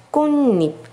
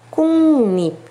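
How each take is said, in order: Both takes have the same delivery.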